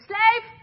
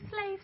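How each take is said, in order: First: It is said in a harsh, bossy tone. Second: It is said in a gentle, friendly tone.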